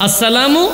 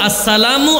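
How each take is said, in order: The two takes are said the same way.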